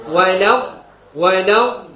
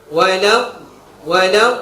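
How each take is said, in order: No difference in how they are said.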